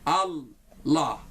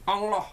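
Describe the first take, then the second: First: The word ends plainly without an added 'ong' sound. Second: The word ends with an added 'ong' sound. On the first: The speaker calls it right. "seperti itu kurang-kurang lebih" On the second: The speaker calls it wrong. "ditambah ong"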